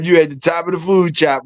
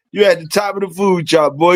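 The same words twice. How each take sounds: First: High excited teasing; playful hype call; hyped praise. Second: Hyped praise. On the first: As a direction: pump him up, tease him. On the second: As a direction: hype him up even more. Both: Real, not acted.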